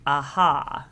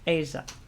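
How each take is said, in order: First: The middle consonant is an h sound. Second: The middle consonant is a zh sound. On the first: "But I always just call it Aha" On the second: "apparently it's pronounced Asia"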